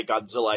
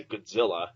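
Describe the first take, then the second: First: Said in the usual way. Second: Godzilla with first syllable squashed to "Gud"; reduced first vowel. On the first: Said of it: "I don't say Godzilla". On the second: Shown as a demonstration. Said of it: "I say Godzilla".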